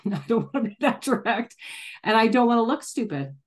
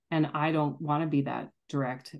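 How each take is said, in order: First: Higher, laughing, mock-whiny "I don't want to be that direct"; mock inner voice. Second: Said in the usual way. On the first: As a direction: parody her own timid inner voice, half laughing. Mock inner voice, laughing self-parody.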